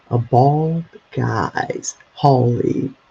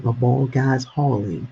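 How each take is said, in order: First: Slow, deliberate business name read. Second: Said in the usual way. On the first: Real, not acted. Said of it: "I'm gonna read it to you". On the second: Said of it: "I like that name".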